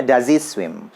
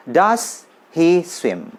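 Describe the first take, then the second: First: "does he swim" run together as "daz i swim", Z in does, H dropped; quick connected reading; fast connected speech demo; fast linked reading. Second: Slow, each word apart: "das hi swim"; "Does he swim" spelled out slowly, full S in does; slow drill reading; slow careful reading. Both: Shown as a demonstration. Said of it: "Kalau cepat bacanya".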